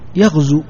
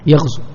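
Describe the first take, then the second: First: The word ends with a long u vowel. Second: The word ends with a short u vowel. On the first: The verb is in the indicative mood. "لو كان هذا الفعل مرفوعا كيف تنطق به" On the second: The verb is in the jussive mood. "بحذف حرف العلة، تحذف هذه الواو"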